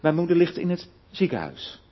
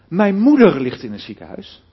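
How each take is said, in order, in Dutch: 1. De klemtoon ligt op het woord ziekenhuis. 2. De klemtoon ligt op het woord moeder. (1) "niet in een verpleeghuis of waar dan ook" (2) "Dan bedoel ik te zeggen, ja, niet mijn vader"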